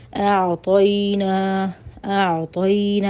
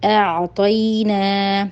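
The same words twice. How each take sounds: First: اعطینا read with a full heavy ط, very slow; wrong heavy reading. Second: اعطینا with a light thin ی, very slow; correct thin reading. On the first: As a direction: demonstrate the heavy mistake slowly. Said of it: "اس طرح نہیں پڑھنا". (اعطینا موٹا، غلط طریقہ) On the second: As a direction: model the right light sound slowly. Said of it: "ہر حال میں اس کو باریک پڑھنا ہے". (اعطینا باریک، صحیح طریقہ) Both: Shown as a demonstration.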